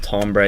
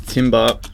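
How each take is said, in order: First: "timbre" said as TOM-bray; French-style pronunciation. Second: "timbre" said as TIM-buh; spelling pronunciation. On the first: Tutor explaining the French word timbre, pronounced TOM-bray. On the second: Tutor reading out the term timbre as spelt, like timber. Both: Shown as a demonstration. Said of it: "pronounced timbre".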